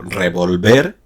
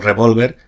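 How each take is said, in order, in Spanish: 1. El acento está en la última sílaba. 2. El acento está en la sílaba central. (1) "haciendo el acento prosódico en la última sílaba" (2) "el sustantivo revólver"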